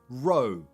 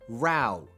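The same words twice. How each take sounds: First: The vowel rhymes with 'go'. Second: The vowel rhymes with 'cow'. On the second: "Ow. The same as cow"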